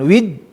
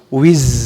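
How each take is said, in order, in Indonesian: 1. Konsonan akhir berhenti tajam, tidak berdengung. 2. Konsonan akhir berbunyi lembut dan berdengung. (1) "bukan wid" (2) "harus empuk dan ya gimana suara lebah, z"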